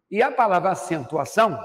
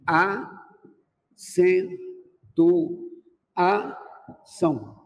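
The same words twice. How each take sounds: First: Said in the usual way. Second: "acentuação" broken into very slow separate syllables; split into syllables. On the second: Shown as a demonstration. Teacher dividing "acentuação" into syllables for the class, very slowly. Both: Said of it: "que eu divido assim".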